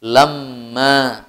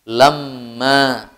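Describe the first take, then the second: First: The m sound is doubled and held long. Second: The same.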